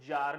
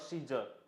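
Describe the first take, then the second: First: It is one syllable beginning with z. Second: It adds a see syllable before zer. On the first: The speaker calls it right. "the pronunciation is जार" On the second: The speaker calls it wrong. "और सीजर"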